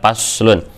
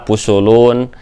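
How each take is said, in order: First: It is said with vowels a, u. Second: It is said with vowels u, u, u. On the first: The speaker calls it right. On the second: The speaker calls it wrong.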